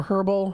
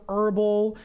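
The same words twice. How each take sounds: First: "herbal" with a breathed H at the start; sounded H. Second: "herbal" with the H dropped, starting on the vowel; silent H. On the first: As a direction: say "herbal" as "her-bal", H pronounced. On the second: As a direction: say "herbal" as "erbal", no H sound. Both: Shown as a demonstration. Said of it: "however you pronounce it".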